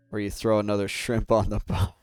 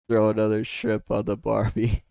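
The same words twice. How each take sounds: First: Said in the usual way. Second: A light, slightly louder Australian accent; half-joking Australian accent on Barbie; mock Australian accent. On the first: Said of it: "I can't even say it". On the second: Shown as a demonstration. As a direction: give it a cheeky Aussie twang. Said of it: "I'm not gonna insult your accent".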